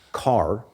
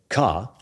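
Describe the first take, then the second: First: The final r sound is clearly pronounced. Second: The final r sound is dropped entirely. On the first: "in an American accent, car, it's that r sound, which is which is rhotic" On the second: "But if I say ka, that's non-rhotic"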